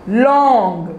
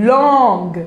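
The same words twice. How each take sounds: No difference in how they are said.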